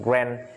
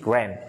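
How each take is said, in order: Both takes have the same delivery.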